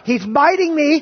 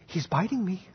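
First: It is said louder, with rising urgency. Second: It is said at a normal, calm volume.

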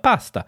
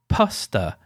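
First: The P is soft with little burst. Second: The P is popped with a strong burst. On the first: This is closer to how Italians actually say it. The speaker calls it right. "more like pasta. ... it's less sort of popping and plosive" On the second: This is how some people think Italians say it. The speaker calls it wrong. "Italians don't say pasta"

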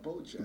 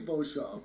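First: The name is pronounced with English sounds. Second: The name is pronounced with French sounds. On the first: The speaker calls it wrong. "Everybody else cannot pronounce French, so they say Beauchamp" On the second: The speaker calls it right. "you say Beauchamp"

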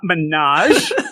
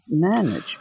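First: It is said with a French-sounding pronunciation. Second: It is said as the plain English word. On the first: The speaker calls it wrong. "It's not menage" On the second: The speaker calls it right. "wait a minute"

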